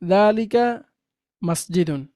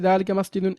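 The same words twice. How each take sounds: First: There is a pause between the words. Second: The two words are joined without a pause.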